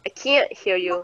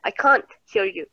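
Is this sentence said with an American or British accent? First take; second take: American; British. First: It is said with an American accent. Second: It is said with a British accent. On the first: "Tapi kalau orang American dia bilang akan bilang" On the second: "Kalau orang British dia bakal bilang can't"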